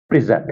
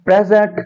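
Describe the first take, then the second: First: present said lower, pri-ZENT; second syllable stressed in present, falling end; verb stress. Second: present said higher, PREZ-ent with strong PRE; first syllable stressed in present; noun stress. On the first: Teacher contrasting for students, verb pri-ZENT. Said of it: "as verb इसको present पढ़ते हैं". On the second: Teacher contrasting for students, noun PREZ-ent. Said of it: "यहां मैं पढ़ूंगा as noun". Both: Shown as a demonstration.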